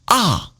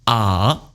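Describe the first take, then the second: First: The pitch falls sharply from high to low. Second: The pitch dips low and then turns up. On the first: "And fourth tone falling" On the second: "Third tone turning"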